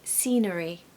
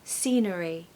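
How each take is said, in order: The two takes are said the same way.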